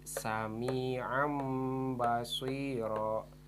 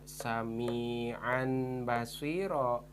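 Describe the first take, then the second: First: The first word ends with an m sound. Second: The first word ends with a clear n sound. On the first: The speaker calls it right. "tetapi jadi Sami'am basiro" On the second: The speaker calls it wrong. "tidak dibaca Sami'an basiro"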